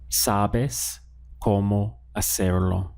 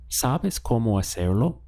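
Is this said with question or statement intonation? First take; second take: statement; question. First: It is said with statement intonation. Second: It is said with question intonation. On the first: It tells someone they know how. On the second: It asks whether someone knows how.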